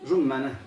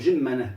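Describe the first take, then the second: First: The first vowel is u, with a doubled m. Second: The first vowel is i. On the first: "بضم الجيم وتشديد الميم مفتوحة" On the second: "بكسر الجيم كما ينطقها العوام"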